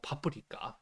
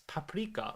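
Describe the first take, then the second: First: The word has a Japanese pronunciation. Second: The word has an English pronunciation.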